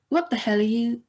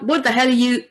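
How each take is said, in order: First: It trails off slowly and thoughtfully. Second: It stops abruptly, as if cut off. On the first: The speaker drifts off in thought. "is much more pensive" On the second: The speaker is interrupted mid-sentence. "someone's been cut off while talking"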